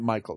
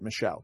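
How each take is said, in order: First: The name is said as English Michael. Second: The name is said as French Michel. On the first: "not Michael" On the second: "I was pronouncing it the French way"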